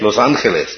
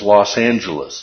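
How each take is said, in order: First: The name is said with Spanish pronunciation. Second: The name is said with English pronunciation. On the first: This is the original form of the name. "Is that how it's originally called? No, it's Los Angeles" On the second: This is the usual local English form. "We say that this major city in Southern California is"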